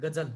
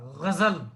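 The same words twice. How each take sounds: First: गजल with a plain hard g and plain j, Hindi style; Marathi-style ghazal. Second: गजल with a throaty gh and a z sound, Urdu style; Urdu ghazal. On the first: Teacher shows students the common Marathi way, plain g and j. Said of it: "हम मराठी की तरह उसको गजल बोलते हैं". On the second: Teacher demonstrates the correct Urdu ghazal to students, gh and z. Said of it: "उसका उच्चारण यहाँ से होता है". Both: Shown as a demonstration.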